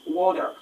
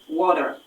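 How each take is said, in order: No difference in how they are said.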